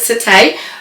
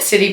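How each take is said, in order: First: It is said the French way, ending in 'ay'. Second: It is said like the English word city. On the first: This is how other people say the name. "people have pronounced it Cité" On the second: This is how the speaker first read the name. "I called it City when I seen it"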